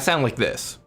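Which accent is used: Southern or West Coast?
West Coast. It is said in a West Coast American accent. This is how the speaker really talks. The speaker calls it right. "Pacific Northwestern or at the very least West Coast accent"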